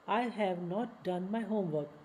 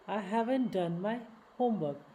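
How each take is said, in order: First: 'Have not' is said as two full words. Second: 'Have not' is shortened into one word.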